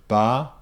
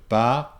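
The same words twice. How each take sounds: No difference in how they are said.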